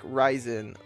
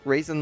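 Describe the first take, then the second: First: The first syllable sounds like 'rye'. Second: The first syllable sounds like 'ray'. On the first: "like Ryzen like um A M D" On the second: "like raisin like the food"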